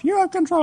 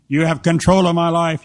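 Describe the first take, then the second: First: Very high mock-girl echo; girl's repeat. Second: Loud, mock-solemn prayer; mock worship. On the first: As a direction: parrot the prayer in a squeaky girlish voice. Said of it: "And she said". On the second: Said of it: "Now say this with me".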